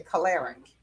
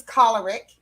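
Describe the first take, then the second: First: Choleric said "kuh-LAIR-ik"; mispronounced choleric. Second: Choleric said "KOL-er-ik"; correct pronunciation. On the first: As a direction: stress the second syllable of choleric, "kuh-LAIR-ik". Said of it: "The word is choleric". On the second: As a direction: stress the first syllable of choleric, "KOL-er-ik". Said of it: "people say choleric". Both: Shown as a demonstration.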